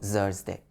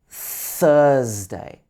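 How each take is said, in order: First: It starts with a z or s sound. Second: It starts with a th sound, tongue forward. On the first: The speaker calls it wrong. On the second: The speaker calls it right.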